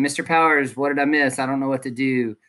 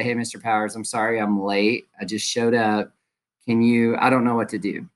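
First: A slightly raised, mildly needy student plea; demo of a late student. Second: Polite student. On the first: Teacher demos a late student's needy question. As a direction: play the late kid asking what he missed. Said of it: "please don't show up saying". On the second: Teacher demos a late student politely apologizing. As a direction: apologize gently for coming in late. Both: Shown as a demonstration.

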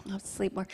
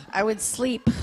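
First: Much softer, drifting; dreamy murmur. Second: Said in the usual way. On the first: Real, not acted. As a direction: sink into it like you're half asleep.

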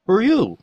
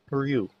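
First: High, loud "who are you"; louder, insistent question. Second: Said in the usual way. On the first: Real, not acted. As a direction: call it out higher and louder. Repeats question louder to game character.

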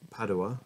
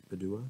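First: "Padua" as PAD-oo-a; alternative pronunciation. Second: "Padua" as puh-DOO-a, rising; alternative pronunciation. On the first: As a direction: stress the first syllable of "Padua", questioning. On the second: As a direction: move the stress in "Padua" to the middle. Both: Shown as a demonstration. Tries two readings of name.

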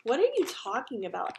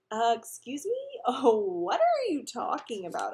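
First: Mocking echo of someone's question; mimicking. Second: Slow, loud, pitch-swooping disbelief; incredulous. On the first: Alex teases Peter by parroting him, mimicking. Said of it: "Alex mimicked". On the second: Peter denies being in love to Alex, incredulous. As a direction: act baffled, drawing out the question. Teased about love, flustered denial. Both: A narrator's reading.

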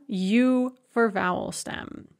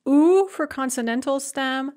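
First: "u" said as yoo, with a y glide before the oo. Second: "u" said as a pure oo sound, no y glide; plain oo vowel. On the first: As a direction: say "u" as yoo, starting with a y sound. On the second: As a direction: say "u" as a bare oo vowel, with no y in front. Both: Shown as a demonstration.

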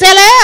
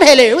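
First: "hello" said like "hair-lair", louder; posh English "hello", rhyming with "hair". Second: Said in the usual way. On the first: Shown as a demonstration. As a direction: stretch "hello" into an upper-class "hair-lair". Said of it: "it's hello". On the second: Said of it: "No, it's not hello".

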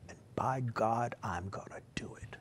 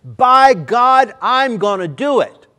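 First: Whispered solemn oath; hushed vow. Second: Shouted high and loud; preacher thundering the vow at the congregation; thundered vow. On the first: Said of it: "do you understand what I just said". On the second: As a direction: roar it as a declaration. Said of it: "No, you don't understand". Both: Shown as a demonstration.

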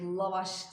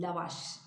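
First: "Lavaş" slowly, with a thick back l and a; wrong thick sound. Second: "lavaş" with a light front l; thin out the first syllable of "lavaş"; correct thin sound. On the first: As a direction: keep the first syllable of "Lavaş" heavy and dark. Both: Shown as a demonstration. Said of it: "o da kalın olmaması gerek".

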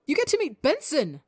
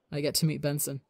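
First: High, thrilled exclamation; bursting with excitement. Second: Slow fond smile. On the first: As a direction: squeal it out with pure joy. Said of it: "boundless excitement and joy". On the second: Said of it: "he smiles slow". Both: Acted.

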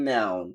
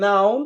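First: American "নাউন" starting on AE; American accent. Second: British "নাউন" starting on open AH; British accent. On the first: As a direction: say "নাউন" as NAE-oon. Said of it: "ওরা বলে". (American উচ্চারণে) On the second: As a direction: say "নাউন" as NAH-oon. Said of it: "এই যে আমরা বলি কি". (British উচ্চারণে) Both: Shown as a demonstration.

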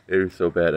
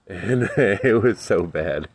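First: Said in the usual way. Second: Laughing through the words. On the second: Real, not acted. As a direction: say it while still laughing. Laughing while recalling bad pepper.

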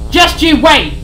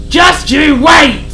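First: Higher, louder warning; furious threat. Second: Slow, much louder yelled threat; drawn-out shout. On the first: Sid warns Harry as he's pulled back. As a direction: threaten him. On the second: Sid's final shouted threat at Harry. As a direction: bellow it out for the last word. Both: Acted. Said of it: "Sid continued to rage".

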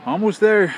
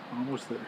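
First: Loud, raised-pitch progress update; high, loud announcement; calling out. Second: Soft, low aside; much softer, understated update; quiet repeat. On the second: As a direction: say it low, as if to yourself. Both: Real, not acted.

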